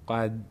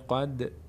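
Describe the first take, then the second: First: The final d is clipped with no bounce. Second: The final d has a slight echoing bounce. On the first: The speaker calls it wrong. "نمیگیم قد قد نشتباست" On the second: The speaker calls it right. "در هنگام تلفظ میشه قد"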